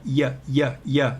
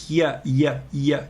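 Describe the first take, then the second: The two takes are said the same way.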